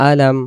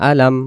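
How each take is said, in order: The two takes are said the same way.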